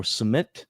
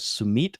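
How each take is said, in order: First: Sumit said with short E, suh-MET; alternative name pronunciation. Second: Sumit said with long EE, soo-MEET; alternative name pronunciation. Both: Shown as a demonstration. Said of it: "Should I pronounce that as".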